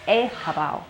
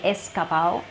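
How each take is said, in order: First: The middle consonant is a breathy h-like sound. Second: The middle consonant is a clear hissing s. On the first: The speaker calls it right. "with the Spanish J sound" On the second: The speaker calls it wrong. "I don't say escapao"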